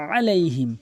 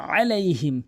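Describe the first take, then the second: Both takes have the same delivery.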